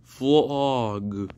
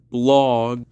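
First: Creepy voice. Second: Said in the usual way. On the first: Pretend. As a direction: say it like a creepy monster. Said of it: "I have a creepy voice ever". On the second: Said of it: "I'm just being silly right here".

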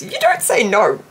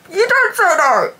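First: Said in the usual way. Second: Higher playful repeat. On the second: Shown as a demonstration. Fan to viewers, repeating it in a playful higher voice. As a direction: repeat "don't" with a playful lift.

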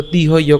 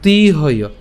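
First: তিহয় with a short, quick i in তি; brief ti at the start of তিহয়; short vowel. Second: তিহয় with a long, held ee in তি; lengthened তি in তিহয়; long vowel. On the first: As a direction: say তিহয় without stretching the first syllable. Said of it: "যদি রসিকার থাকতো". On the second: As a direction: stretch the first syllable of তিহয়, tee-hoyo. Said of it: "উচ্চারণটা দীর্ঘ করলাম". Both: Shown as a demonstration.

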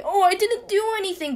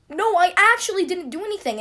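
First: High-pitched, put-on innocent whine; fake crying. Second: High, loud tearful insistence; imitated sincere cry. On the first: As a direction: act out obviously fake tears. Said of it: "when people cry, like, fakely". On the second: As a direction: plead innocence as if truly crying. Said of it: "My cry was like".

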